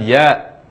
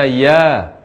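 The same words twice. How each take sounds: First: The vowel ends with a glottal stop. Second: The vowel ends openly with no glottal stop. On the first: The speaker calls it wrong. "bukan ya" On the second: The speaker calls it right. "ya dibaca ya"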